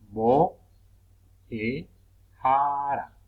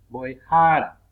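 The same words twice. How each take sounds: First: "Bo, e, jara" with long pauses between parts; syllable by syllable. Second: Said in the usual way. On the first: Shown as a demonstration. Teacher separating syllables at the puso, "Bo, e, jara" in pieces. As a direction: set each syllable of "Bo, e, jara" apart. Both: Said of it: "del puso al separar sílabas".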